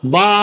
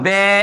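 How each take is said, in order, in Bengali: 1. স্বরটি পুরোপুরি খোলা a। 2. স্বরটি e-এর দিকে ঝোঁকা। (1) "বা তা সা এমন করা যাবে না" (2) "আবার বে এমনও করা যাবে না"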